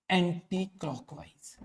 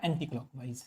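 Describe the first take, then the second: First: anti clockwise spaced out slowly and softer; slow repetition. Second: Said in the usual way. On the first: Shown as a demonstration. Teacher repeating the current's direction for students, slow repetition.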